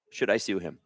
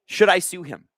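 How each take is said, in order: First: Muttered aside. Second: Said in the usual way. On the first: Real, not acted. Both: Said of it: "repeats question to himself".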